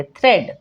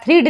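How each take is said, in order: First: थ्रेड with an e vowel, rhyming with "bread"; correct e sound. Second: थ्रीड with a long ee, rhyming with "reed"; mistaken ee reading. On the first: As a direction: say थ्रेड with e in place of ee, falling at the end. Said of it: "ए पढ़ेंगे". (थ्रेड में ए की आवाज़, सही उच्चारण) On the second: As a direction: misread thread as थ्रीड, with ee. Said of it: "थ्रीड नहीं पढ़ेंगे". (थ्रीड में लंबी ई, गलत उच्चारण) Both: Shown as a demonstration.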